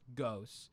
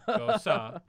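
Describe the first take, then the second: First: The word ends with a t sound. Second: The word ends with an a vowel. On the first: "we're pretty sure it's just Ghost" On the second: "You say it like the name Rosa"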